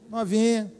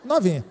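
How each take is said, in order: First: Novinha stretched slow and knowing; slow, playful Novinha; drawn-out teasing. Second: Said in the usual way. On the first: Shown as a demonstration. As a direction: linger on Novinha, teasing the crowd. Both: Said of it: "Uma novinha, né, gente?".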